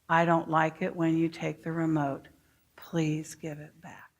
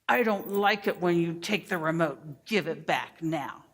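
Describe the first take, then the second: First: It is said in a calm voice. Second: It is said in a demanding voice.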